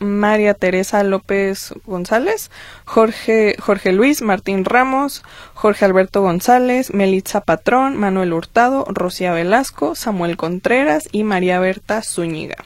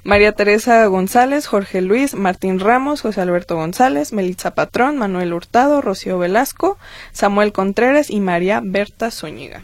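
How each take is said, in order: First: The names are read at a slower pace. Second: The names are read at a faster pace.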